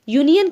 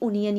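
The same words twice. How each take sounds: First: The word begins with a 'y' glide sound. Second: The word begins with a plain vowel sound. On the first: The speaker calls it right. "या कह करके pronounce करेंगे" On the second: The speaker calls it wrong. "ना कि यूनियन"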